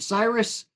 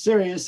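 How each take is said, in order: First: The word is said like 'Cyrus', two syllables. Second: The word is said like 'serious', three syllables. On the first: The name is mispronounced. The speaker calls it wrong. "they couldn't pronounce it" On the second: The name is pronounced properly. The speaker calls it right. "it's Sirius"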